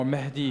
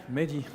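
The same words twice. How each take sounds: First: Mehdi with a breathy h, MEH-dee; Arabic pronunciation. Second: Said in the usual way. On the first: Shown as a demonstration. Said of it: "if you have a Arabic accent". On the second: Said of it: "or Mehdi if you have a Arabic accent".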